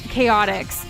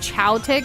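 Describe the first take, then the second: First: The name does not start with 'chow'. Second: The name starts with a 'chow' sound. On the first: The speaker calls it right. "you said it correctly" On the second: The speaker calls it wrong. "I called it Chowtix"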